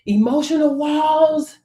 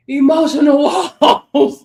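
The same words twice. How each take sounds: First: Said in the usual way. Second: "Emotional" pushed out louder and higher, breaking into a laugh before "walls"; cracking up mid-phrase; laughing through it. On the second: Real, not acted. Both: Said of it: "trying to get my emotional walls under control".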